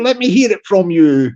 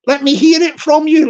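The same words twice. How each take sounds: First: Said in the usual way. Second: Calling out. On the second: Shown as a demonstration. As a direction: call it out to the troops.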